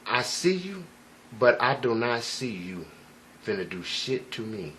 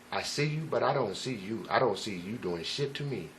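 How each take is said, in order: First: Calm stare. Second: Soft, low and unbothered; quietly certain, no fear at all; calm. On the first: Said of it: "very, uh, relaxed". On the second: Staring down a gunman, calm and soft. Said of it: "my feeling was very calm". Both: Retold or imitated.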